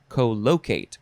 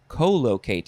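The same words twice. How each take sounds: First: The stress is on a later syllable. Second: The stress is on the first syllable. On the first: "So I will say collocate, because the word locate is in there" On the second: "I want to emphasize the first syllable"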